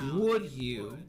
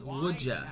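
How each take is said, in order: First: The D and Y sounds stay separate. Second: The D and Y blend into a J sound.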